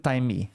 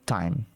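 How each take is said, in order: First: An extra vowel sound follows the final m. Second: The word ends cleanly on the m sound. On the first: The speaker calls it wrong. "a gente não fala o, o E, né? Do time. Então não fica time" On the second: The speaker calls it right. "fica time"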